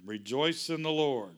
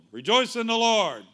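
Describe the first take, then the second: First: Said in the usual way. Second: Higher and much louder, hitting REJOICE; preaching shout. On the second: Acted. Pastor rousing the congregation, a full preaching shout. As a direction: belt out Rejoice like a call to the church. Repeats verse with full force.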